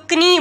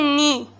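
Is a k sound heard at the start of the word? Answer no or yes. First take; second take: yes; no. First: The word starts with a k sound before n. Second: The word starts with an n sound, no k. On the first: The speaker calls it wrong. "अगर pronounce होती तो कनी बनता" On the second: The speaker calls it right. "के की का sound यहाँ पे प्रोनाउंस नहीं हो रही"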